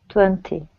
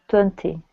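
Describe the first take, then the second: Both takes have the same delivery.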